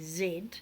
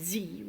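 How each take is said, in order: First: The letter name is said as zed. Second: The letter name is said as zee. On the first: This is the British English form. The speaker calls it right. "we say Z" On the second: This is not the British English form. The speaker calls it wrong. "in English English, we don't say Z"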